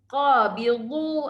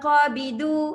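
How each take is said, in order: First: The middle consonant is heavy and thick. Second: The middle consonant is light, like a plain d. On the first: The speaker calls it right. "Tebalkan dia. Huruf tebal" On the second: The speaker calls it wrong. "jangan qabidu ... nanti jadi huruf dal"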